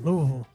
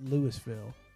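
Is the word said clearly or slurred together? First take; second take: slurred; clearly. First: The syllables are slurred and run together. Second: Every syllable is pronounced clearly and fully. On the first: The speaker calls it right. "You say it like you're slurring" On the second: The speaker calls it wrong. "It's not Louisville"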